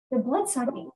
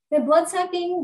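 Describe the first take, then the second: First: Said in the usual way. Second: "blood-sucking" punched higher and louder; emphatic repeat. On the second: Real, not acted. Ranting about mosquitoes to Christopher, "blood-sucking" stressed high and loud.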